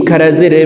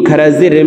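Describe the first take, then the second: Both takes have the same delivery.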